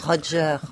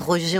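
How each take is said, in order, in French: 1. Le nom se prononce à l'anglaise. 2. Le nom se prononce à la française. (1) "on dit Roger" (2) "on ne dit pas Roger"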